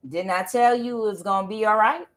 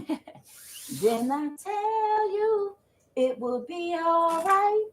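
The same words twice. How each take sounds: First: Said in the usual way. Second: Slow, high sung taunt; sung, drawn-out singsong, much higher than speech; sung refrain. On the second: Real, not acted. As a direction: sing it like a told-you-so victory chant.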